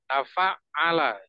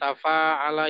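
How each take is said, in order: First: The 'ain consonant is doubled and pressed. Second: The vowel after fa is drawn out long. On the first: The speaker calls it right. "penekanan pada ainnya" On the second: The speaker calls it wrong. "jangan dipanjangkan pada bagian fa-nya"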